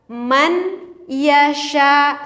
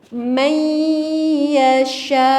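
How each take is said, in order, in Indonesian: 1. Huruf n diucapkan jelas sebelum y. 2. Huruf n menyatu menjadi bunyi y yang digandakan. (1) "Ini adalah cara membaca yang salah" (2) "Coba dengar oleh telinga kita, ada gak nunnya?"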